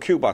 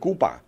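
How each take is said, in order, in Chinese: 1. 用英语发音。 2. 用西班牙语发音。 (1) "你再说Cuba 他就笑你了" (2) "西班牙语这个字的发音是Cuba"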